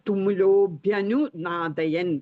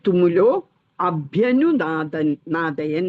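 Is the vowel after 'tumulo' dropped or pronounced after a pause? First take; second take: dropped; pronounced. First: The 'a' is dropped and the words run together. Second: A short pause comes, then the 'a' is pronounced. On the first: "നമ്മൾ ആ ആ pronounce ചെയ്യില്ല" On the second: "കുറച്ചൊന്ന് നിർത്തിയിട്ട് അഭ്യനുനാദയൻ എന്ന് പറയണം"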